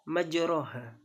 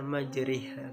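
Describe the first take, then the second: First: The middle syllable has an open 'a' vowel. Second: The middle syllable's vowel is tilted toward 'i'. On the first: "Kan biasanya dibaca apa?" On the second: "karena hukumnya imalah menjadi dibaca majriha"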